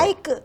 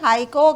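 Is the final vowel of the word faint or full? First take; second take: faint; full. First: The final vowel is barely heard. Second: The final vowel is clearly pronounced. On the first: The speaker calls it right. "हाइक यानी वाव का सिर्फ तासुर है" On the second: The speaker calls it wrong. "वाव को बहुत वाजे अंदाज में हम अदा करते हैं, जो नहीं करना चाहिए"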